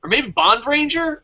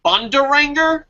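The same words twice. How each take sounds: First: Bond Ranger split into two clear words, stress on Ranger; corrected team name. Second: Bondaranger run together as one word, rising like a question; misread team name. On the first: Host correcting the team name aloud: Bond Ranger as two words. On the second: Host reading a listed team name, unsure: Bondaranger as one word. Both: Shown as a demonstration. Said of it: "Oh, Bond Ranger".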